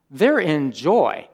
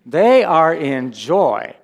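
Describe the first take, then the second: First: JOY stressed in a slow, deliberate statement; emphatic. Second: THEY and JOY hit loud, every word drawn out; slow, loud insistence on each word of "They are in joy"; forceful emphasis. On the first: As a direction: stretch out "They're in joy" with firm emphasis. First take of repeated emphatic claim. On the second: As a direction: proclaim "They are in joy" loudly and slowly. Repeats the claim more forcefully. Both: Real, not acted.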